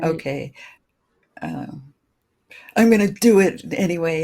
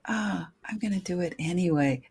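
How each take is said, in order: First: It sounds strong and determined. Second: It sounds soft and vulnerable.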